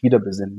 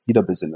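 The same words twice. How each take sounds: First: Said in the usual way. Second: WIEDER set apart with a lower, falling tone; stress on WIEDER. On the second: Real, not acted. Fan stressing the club's return to old strengths, emphasis on WIEDER. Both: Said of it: "mit Betonung auf wieder".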